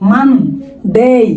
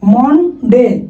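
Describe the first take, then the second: First: The first vowel is an open 'a' sound. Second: The first vowel is a rounded 'o' sound. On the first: The speaker calls it right. "এটার উচ্চারণ কি হবে? মানডে" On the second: The speaker calls it wrong. "এটা মনডে না"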